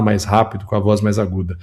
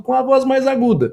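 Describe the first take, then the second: First: Said in the usual way. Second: "mais rápido com a voz mais aguda" pushed up high; higher-pitched voice. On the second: Shown as a demonstration. Commentator showing viewers how Lula sounds on Trump's name, high-pitched. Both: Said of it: "ele fala mais rápido com a voz mais aguda".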